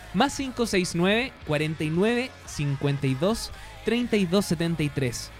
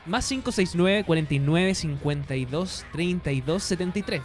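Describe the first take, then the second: First: The number is said more slowly. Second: The number is said at normal speed.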